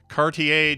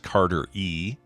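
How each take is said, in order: First: The name is run together into Cartier. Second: The name is said as separate Carter and E. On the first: The speaker calls it wrong. "the way they pronounced her name at her graduation" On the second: The speaker calls it right. "Miss Carter E"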